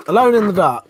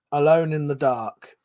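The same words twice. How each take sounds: First: Alone in the Dark repeated louder and higher, ALONE hit hardest; emphatic repeat. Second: Said in the usual way. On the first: Real, not acted. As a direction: punch ALONE in Alone in the Dark, disgusted. Repeats the title with disgust.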